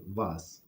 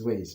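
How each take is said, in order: First: The word is said with a European pronunciation. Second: The word is said with the speaker's local pronunciation. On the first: "They pronounce it vase" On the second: "we here where we live we pronounce as ways"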